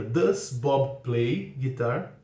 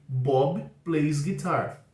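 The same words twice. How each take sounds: First: "Does" put first, each word drawn out; very slow question. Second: Every word of "Bob plays guitar." drawn out; very slow statement. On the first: Teacher modelling the question for students, very slow. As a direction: ask it very slowly and clearly. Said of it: "a pergunta fica". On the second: Teacher modelling the statement for students, very slow. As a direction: spell the sentence out slowly for learners. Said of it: "É o caso de". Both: Shown as a demonstration.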